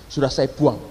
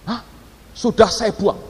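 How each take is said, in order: First: Low, understated matter-of-fact answer; imitated offhand reply. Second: Startled "huh?" then disbelieving repeat; imitated incredulous echo. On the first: Foreign passenger answers about the boarding pass, imitated offhand reply. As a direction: deliver the news low, as a finished fact. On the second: Listener reacts to the discarded boarding pass, imitated incredulous echo. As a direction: echo it back as a shocked question.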